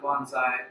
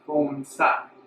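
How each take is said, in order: First: It is pronounced a casual English-style way. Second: It is pronounced the traditional Japanese way. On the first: The speaker calls it wrong. "not bonsai, like you may have heard from me" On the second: The speaker calls it right. "How do you pronounce that in the traditional sense? You say bonsai"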